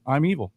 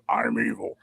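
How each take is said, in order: First: It is said casually, like an ordinary guy. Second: It is said in a menacing, intimidating way.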